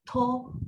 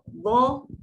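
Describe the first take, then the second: First: The syllable starts with a t sound. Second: The syllable starts with a heavy d sound. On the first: The speaker calls it wrong. "Jangan ada to" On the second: The speaker calls it right. "bila kita kata do"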